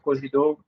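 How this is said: The word is said with a French accent. This is how it is said in Benin and Togo. "It even has like the French accent in Benin and Togo"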